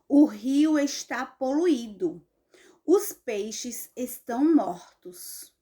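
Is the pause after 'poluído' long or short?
long. There is a longer pause after 'poluído'. The speaker calls it right. "Ponto e vírgula indica uma pausa maior que a vírgula"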